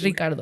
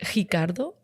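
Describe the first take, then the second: First: The name is said without Brazilian Portuguese sounds. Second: The name is said with Brazilian Portuguese sounds. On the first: "Or no, it's Ricardo" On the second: "as Brazilians do"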